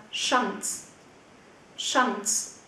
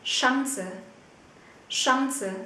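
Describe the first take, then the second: First: Chance as "shahns", open a, final e silent; alternative short pronunciation. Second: Chance as "SHAHN-suh", open a and sounded final e; alternative pronunciation. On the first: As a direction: model "Chance" with an a vowel in one syllable. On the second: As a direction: model "Chance" with an a vowel, two syllables. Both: Shown as a demonstration. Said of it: "Cũng có thể phát âm là".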